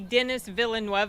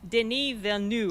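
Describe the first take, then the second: First: The name is pronounced as English spelling suggests. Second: The name is pronounced in a French way. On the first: The speaker calls it wrong. "they want to say Dennis Villeneuve because that's what it looks like" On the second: The speaker calls it right. "it's l- something more like Denis Villeneuve"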